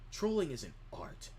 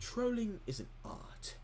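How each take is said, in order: First: It is spoken in the speaker's usual accent. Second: It is spoken in a put-on British accent.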